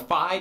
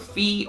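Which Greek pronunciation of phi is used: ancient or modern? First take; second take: ancient; modern. First: The word is said the ancient Greek way. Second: The word is said the modern Greek way. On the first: "depending on if you're more into the modern or ancient Greek" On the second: "depending on if you're more into the modern or ancient Greek"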